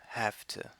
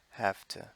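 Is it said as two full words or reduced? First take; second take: reduced; reduced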